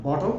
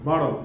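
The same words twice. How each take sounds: First: British "BOT-ul" with crisp t; British model word, rounded o; British pronunciation. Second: American "BAH-dul", t like d; American pronunciation. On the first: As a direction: say bottle the British way. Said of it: "হ্যাঁ, আমরা". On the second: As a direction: say bottle the American way. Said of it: "অথবা বটল". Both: Shown as a demonstration.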